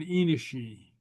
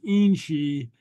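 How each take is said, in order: First: The word is said in full, vowel kept. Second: The word is contracted, with a vowel dropped. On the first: The speaker calls it wrong. "it's not inishi" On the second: The speaker calls it right. "In inch is inchi"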